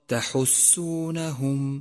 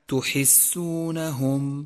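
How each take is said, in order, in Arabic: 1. الحركة الأولى فتحة قصيرة 'a'. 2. الحركة الأولى ضمة قصيرة 'u'. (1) "فانتبه إلى فتحة التاء وإياك من ضمها... فالصواب" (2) "والخطأ الشائع"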